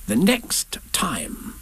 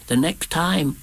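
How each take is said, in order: First: Slow, drawn-out, raised Rabbit voice; conspiring Rabbit. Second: Raised little Piglet voice; Piglet relaying. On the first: Rabbit nudges Piglet to pass it on, slow raised voice. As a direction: stretch each word out confidentially. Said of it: "he said". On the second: Piglet passes Rabbit's message to Pooh, small raised voice. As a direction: pass the message on, pitched up and less drawn out. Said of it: "said Piglet to Pooh". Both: A narrator's reading.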